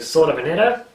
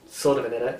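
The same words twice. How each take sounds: First: It is said in an Australian accent. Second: It is said in an American accent.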